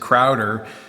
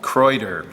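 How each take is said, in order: First: The word is said with an English-style pronunciation. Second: The word is said with a German-style pronunciation. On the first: The speaker calls it wrong. "I was pronouncing, I said Crowder" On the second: The speaker calls it right. "apparently the German pronunciation is like Kreuter"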